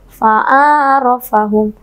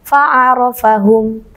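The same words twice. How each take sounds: First: "Fa'arafahum" with the short letters dragged and broken up; wrong, drawn out. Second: "Fa'arafahum" with the short letters said quickly and crisply; quick and precise. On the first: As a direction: drag "Fa'arafahum" as a mistake. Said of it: "Salah ya". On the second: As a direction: say "Fa'arafahum" fast and exact. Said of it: "Dibaca cepat dan tepat". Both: Shown as a demonstration.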